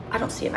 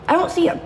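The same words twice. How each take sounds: First: I don't see him dropped much softer; softer repeat. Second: Said in the usual way. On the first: Real, not acted. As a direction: let it fade to near nothing. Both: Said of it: "repeated softer".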